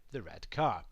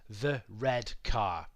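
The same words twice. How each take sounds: First: Said in the usual way. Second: Slowly, word by word; teacher spelling out a phrase; slow demo. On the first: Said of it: "the adjective is simply telling us". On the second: Shown as a demonstration. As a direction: lay out each word of "the red car." slowly. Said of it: "let's take the phrase".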